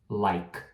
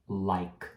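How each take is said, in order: Both takes have the same delivery.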